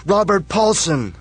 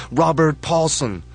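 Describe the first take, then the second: First: High, loud, slow roaring chant; crowd yell. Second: High, loud, slow chant of the name; crowd yell. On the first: Crowds roar the dead man's name, peak chant. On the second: Crowds chant the dead man's name, loud. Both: Acted. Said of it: "the crowds yell".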